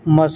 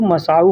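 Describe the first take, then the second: First: The word ends without a final 'u' vowel. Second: The word ends with a final 'u' vowel. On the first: "पेश को हटा देंगे तो मसा" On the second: "पेश लगेगा तो मसाउ हो जाएगा"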